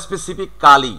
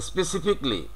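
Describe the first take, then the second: First: "specific কালি" with a full KAA-lee on the end; "specific কালি" as spesifi-kaa-li; wrong "specifically". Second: "specifically" as spesi-FIK-lee; "specifically" ending in "fik-li"; correct "specifically". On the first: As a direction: stress the extra "কালি" in "specific কালি". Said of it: "not specific কালি". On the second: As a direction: say "specifically" with the "ca" dropped. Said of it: "সঠিক উচ্চারণটা হচ্ছে". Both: Shown as a demonstration.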